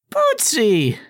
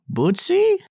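First: Put-on high, joyful old lady cry; delighted old woman. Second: Put-on high, slow, hopeful old voice; frail old woman. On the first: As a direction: greet the lost pet with joy. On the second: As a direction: call out like a frail grandma. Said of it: "a frail voice asks".

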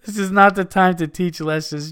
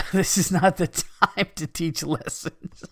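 First: Higher, louder, laugh held back; emphatic reread. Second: Laughing through the words, higher and slow; cracking up. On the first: Host rereading a listener's rant after laughing, emphatic. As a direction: get the line out clearly after cracking up. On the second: Host losing it over a listener's email, cracking up. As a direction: break into real laughter mid-sentence. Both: Real, not acted.

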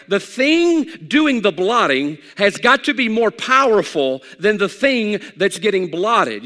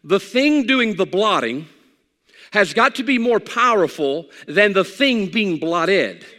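First: Louder preaching push on the repeat; repeating it with more force; preached louder. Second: Slow and deliberate, word by word; teaching it carefully, slowly; slow principle. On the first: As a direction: drive the principle home with force. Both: Shown as a demonstration. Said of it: "If I give you a principle".

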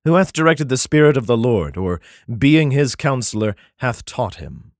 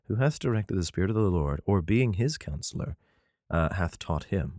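First: Solemn King James reading voice; first read-through of the verse; scripture reading. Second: Softer, careful second reading of the verse; rereading the verse to himself; quiet reread. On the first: Acted. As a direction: declaim the verse as written. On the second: Shown as a demonstration. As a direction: reread it under your breath to check it. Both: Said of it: "Um, hold on".

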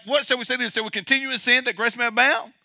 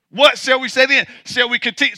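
First: Softer, fast, half-mumbled objection; mock objector. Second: Plain preaching voice, firmly put; Paul's question. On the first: Preacher mimicking the objector's question to the congregation, softly and fast. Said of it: "the objector was like". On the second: Retold or imitated. Preacher quoting Paul's question to the congregation, firm and plain. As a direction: ask it straight as Paul would. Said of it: "so Paul says".

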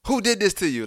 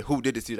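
First: High-pitched, demanding mother; acted-out mom, pitched well up; retold alarmed mom. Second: Said in the usual way. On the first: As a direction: question your hurt child in alarm. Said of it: "my mom's was like". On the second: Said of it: "she just said".

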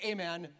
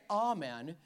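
First: "amen" as AY-men. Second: "amen" as AH-men. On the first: Pastor teasing: AY-men lovers. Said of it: "if you say amen". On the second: Pastor teasing: AH-men lovers. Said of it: "If you say amen". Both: Shown as a demonstration.

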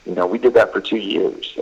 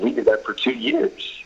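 First: Said in the usual way. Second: "We did that for two years" pitched high and softer, rising on "two years"; rising high tune. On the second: Shown as a demonstration. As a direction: lift it like a question, climbing on "two years".

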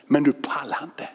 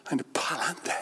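First: Said in the usual way. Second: Whisper. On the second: Acted. Repeated as a whisper.

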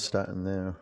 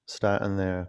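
First: "starting there" repeated softly, trailing off; soft echo. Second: Said in the usual way. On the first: Shown as a demonstration. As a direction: let "there" fade out quietly. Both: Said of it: "starting there (repeated)".

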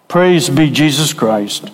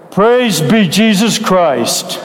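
First: Said in the usual way. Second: Slow, drawn-out praise with PRAISE leaned on; the preacher asks the congregation for more; fervent praise. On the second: Shown as a demonstration. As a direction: call it out like you mean it. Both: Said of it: "That's more like it".

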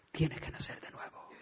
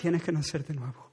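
First: "Tienes que nacer de nuevo" whispered, very soft and breathless. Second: Said in the usual way. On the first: Shown as a demonstration. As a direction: let it fall to a secret whisper. Repeats the phrase, then whispers it.

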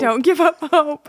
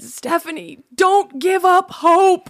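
First: Lightly voiced old man, high pitch; grandpa voice. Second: Put-on slow, high old man shouting with a hearing aid; loud hard-of-hearing grandpa. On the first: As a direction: echo the grandpa's line playfully. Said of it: "hearing aid grandpa voice". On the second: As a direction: call it out slowly like deaf grandpa. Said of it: "in his very loud ... hearing aid grandpa voice".

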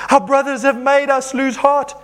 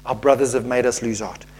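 First: High, emphatic wail of reading; dramatic complaint. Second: Low, subdued disbelief; dismayed repeat. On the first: Acted. Preacher reading the Israelites' complaint, high dramatic protest. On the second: Real, not acted. Preacher reacting to the verse, low dismayed aside. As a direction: let the voice sink in dismay.

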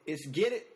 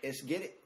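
First: Louder second take, rising; hype shout. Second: Said in the usual way. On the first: Real, not acted. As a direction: pump the crowd up. Hype call before starting.

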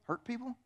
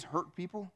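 First: "hurt people" soft and higher, rising like a question; hurt people as action. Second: "hurt people" soft and level, as the ones who are hurting; hurt people as subject. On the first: Preacher asks whether they know the phrase, rising second half. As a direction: lift "hurt people" upward to finish the saying. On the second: Preacher quotes a known phrase, soft first half. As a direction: say "hurt people" softly, leaving the phrase open. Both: Shown as a demonstration. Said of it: "You ever heard the phrase".

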